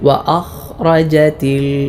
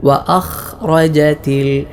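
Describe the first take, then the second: The two takes are said the same way.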